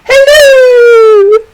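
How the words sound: It is said in a Mrs Doubtfire impression.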